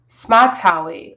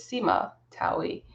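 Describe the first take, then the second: First: The first part is said as one syllable. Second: The first part is said as two syllables.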